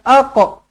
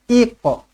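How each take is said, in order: First: The word begins with an a vowel. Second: The word begins with an i vowel. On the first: The speaker calls it wrong. "bukan aqa" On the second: The speaker calls it right. "yang betul adalah iqa"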